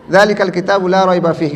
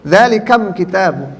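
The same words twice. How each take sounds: First: Zalikal read with a clear l; plain reading. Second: Zalikam said slowly, lam swapped for mim; slow Zalikam with a clear m sound; lam changed to mim. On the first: Teacher reads the standard Zalikal form to the class. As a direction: Zalikal Kitabu with the usual lam sound. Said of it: "Gimana bacanya?". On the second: Teacher demonstrates Tamim dialect to students, Zalikam with mim. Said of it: "lamnya ganti jadi mim". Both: Shown as a demonstration.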